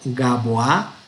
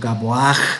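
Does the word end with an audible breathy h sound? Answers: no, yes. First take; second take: no; yes. First: The word ends on a plain vowel. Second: The word ends with an audible breathy h. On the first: The speaker calls it wrong. "no vamos a ir Gabo, Gaboa" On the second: The speaker calls it right. "sino Gaboaj"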